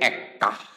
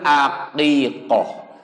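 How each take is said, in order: First: It is shortened to two syllables. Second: It has three syllables with i and o vowels. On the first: The speaker calls it wrong. "Hese keneh jadi ekah" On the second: The speaker calls it right. "Yang betul aqiqoh"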